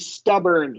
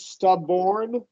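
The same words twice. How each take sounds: First: The last syllable has a weak 'er' vowel. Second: The last syllable has a full 'or' vowel. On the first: The speaker calls it right. "it's going to be stubborn, schwa" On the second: The speaker calls it wrong. "it sounded like you said stubborn, like or"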